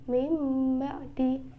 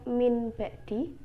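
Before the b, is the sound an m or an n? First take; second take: m; n. First: An m sound with closed lips comes before the b. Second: A clear n sound comes before the b. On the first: The speaker calls it right. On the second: The speaker calls it wrong. "bukan dibaca"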